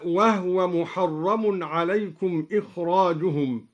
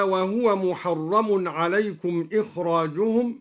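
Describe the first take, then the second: First: وهو said "wahwa", no vowel on the h; vowelless ha. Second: Said in the usual way. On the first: Shown as a demonstration. Teacher demonstrating al-Duri's reading, وهو as "wahwa" with a still h. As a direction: close the h in وهو straight onto the w. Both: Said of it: "سكن الدوري الهاء هكذا".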